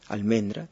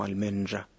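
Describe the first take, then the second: First: The R is a plain, non-fricative R. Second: The R is a voiced fricative sound.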